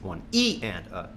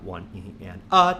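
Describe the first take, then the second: First: The stress falls on the word E. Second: The stress falls on the word a. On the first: "the accents on the E's" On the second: "The next bar will be on the uh"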